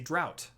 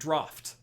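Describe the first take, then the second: First: The word rhymes with 'out'. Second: The word ends with an 'aft' sound. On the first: The speaker calls it wrong. "I would say drought" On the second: The speaker calls it right. "That's actually draft"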